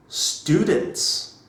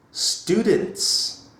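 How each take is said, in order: Both takes have the same delivery.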